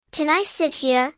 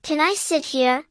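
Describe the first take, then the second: No difference in how they are said.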